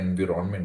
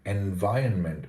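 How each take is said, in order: First: The word is said with three syllables. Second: The word is said with four syllables. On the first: The speaker calls it wrong. "don't say environment. That's incorrect" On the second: The speaker calls it right. "Environment is how you pronounce it. ... Four syllables"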